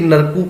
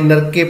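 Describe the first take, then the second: First: The word ends with an added 'u' vowel. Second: The word ends with an added 'e' vowel. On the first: "ये इस तरह नहीं कि नरकू पढ़ देवांगे" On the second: "नरके पढ़ देवांगे"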